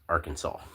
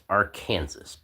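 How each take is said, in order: First: The word ends differently from Kansas. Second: The word ends like the word Kansas. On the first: The speaker calls it right. "It's pronounced Arkansas" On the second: The speaker calls it wrong. "So you would think it would be pronounced Arkansas"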